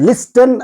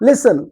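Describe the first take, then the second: First: A t sound is heard after the s. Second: No t sound is heard after the s. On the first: The speaker calls it wrong. "లిస్టన్ అని చదువుతున్నామా? లేదే" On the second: The speaker calls it right. "లిసన్ అంటున్నాం"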